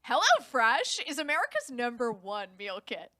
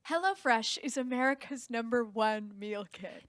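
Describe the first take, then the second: First: It is said like a talk show host. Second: It is said as a plain read.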